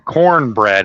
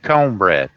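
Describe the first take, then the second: First: It is said in a general American accent. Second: It is said in a Southern American accent.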